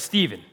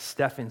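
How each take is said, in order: First: The middle consonant is a v sound. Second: The middle consonant is an f sound. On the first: The speaker calls it right. "it's Stephen. I've been corrected" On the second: The speaker calls it wrong. "I got discipled as Stephen, so I guarantee you I'm going to mess it up somewhere along the way. PH says F"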